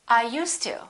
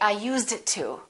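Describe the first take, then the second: First: The D and T blend into one sound. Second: The D and T are pronounced separately. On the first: The speaker calls it right. "They say" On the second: The speaker calls it wrong. "they never say"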